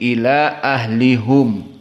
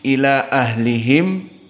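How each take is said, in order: First: The vowel after the h is 'u'. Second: The vowel after the h is 'i'. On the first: This is the reading of two particular reciters. "menjadi ila ahlihum. Ini yang dibaca oleh Al-Kisai wa Khalaf" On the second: This is the majority reading. "Alaihim ila ahlihim menjadi"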